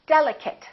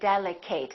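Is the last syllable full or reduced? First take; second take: reduced; full. First: The last syllable is reduced and weak. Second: The last syllable is a full 'ate'. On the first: The speaker calls it right. "we reduce this ate" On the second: The speaker calls it wrong. "Don't say delicate. That's a very common mistake"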